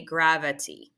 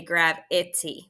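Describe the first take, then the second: First: Said in the usual way. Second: "gravity" with a distinct short i in the middle; mispronounced demo. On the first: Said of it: "we say gravity". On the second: Shown as a demonstration. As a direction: say "gravity" as grav-IT-ee, middle vowel spelled out. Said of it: "We don't say gravity".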